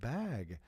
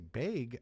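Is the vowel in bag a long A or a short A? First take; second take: short A; long A. First: It is said with a plain short A. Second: It is said with a Minnesota long A.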